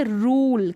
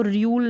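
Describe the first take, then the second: First: रूल with a long "oo", no glide; oo pronunciation. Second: र्यूल with a y-glide, "ryool"; wrong yoo pronunciation. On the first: Teacher reading the word correctly, रूल as "rool". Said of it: "यू को ऊ ही पढ़ा जा रहा है". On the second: Teacher warning against a misreading, र्यूल as "ryool". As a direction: put "yoo" after the r in र्यूल. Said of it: "नहीं पढ़ सकते". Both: Shown as a demonstration.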